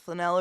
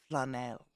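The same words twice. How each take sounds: First: The stress is on the second syllable. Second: The stress is on the first syllable.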